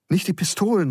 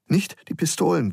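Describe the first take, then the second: First: Put-on high, alarmed boy's plea; startled, urgent protest; startled cry. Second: Higher-pitched, restrained plea; pleading, a little less alarmed; pleading repeat. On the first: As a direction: call it out higher, in sudden fright. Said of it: "rief Geronimo erschrocken". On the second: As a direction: beg gently, with the alarm reined in. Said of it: "ein wenig leiser, bittend". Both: A narrator's reading.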